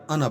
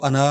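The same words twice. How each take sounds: First: अना said briefly, with no stretched vowel; correct short vowel. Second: अना with the middle vowel wrongly stretched long. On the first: Teacher showing learners the right reading, अना kept short. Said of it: "अना पढ़ना है". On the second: Teacher showing learners the mistake to avoid, अना overlengthened. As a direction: drag out the vowel after न in अना. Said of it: "इसको अना नहीं पढ़ना". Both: Shown as a demonstration.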